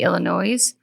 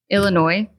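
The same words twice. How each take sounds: First: The final S is sounded. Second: The final S is silent. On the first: The speaker calls it wrong. "I was wrong" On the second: The speaker calls it right. "there is no S on the end"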